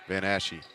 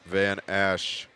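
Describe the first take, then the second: First: The name ends with a final 'ee' syllable. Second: The name ends without a final 'ee' syllable. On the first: The speaker calls it right. "I got to correct myself" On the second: The speaker calls it wrong. "I was saying it wrong"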